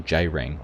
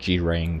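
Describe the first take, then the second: First: The name begins with a J sound. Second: The name begins with a hard G sound. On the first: The speaker calls it right. "It sounds like a J" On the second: The speaker calls it wrong. "it's not G-Rang"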